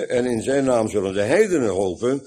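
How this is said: The word heidenen carries strong stress. "vanwege de klemtoon op heidenen"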